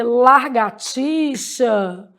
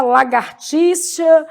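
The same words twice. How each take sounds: First: Slow largatixa, R after LA; swapped R. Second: Slow lagartixa, R after GA; R in "gar". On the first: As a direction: draw out the mistake lar-ga-tixa. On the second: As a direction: draw out la-gar-tixa. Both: Shown as a demonstration. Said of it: "A pessoa vai lá e fala trocado".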